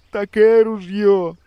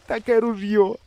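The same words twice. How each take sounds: First: High, slow, louder grieving moan in a different voice. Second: High, mournful moan in a different voice. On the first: The swimming hunter moans over his gun, slow and louder. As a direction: let the grief swell out slowly. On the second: The swimming hunter moans over his gun, high and mournful. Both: A narrator's reading. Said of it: "стогне".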